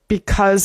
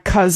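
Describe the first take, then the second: First: The word is said in full, two syllables. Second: The first syllable is dropped, one syllable.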